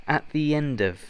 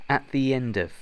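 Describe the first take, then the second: No difference in how they are said.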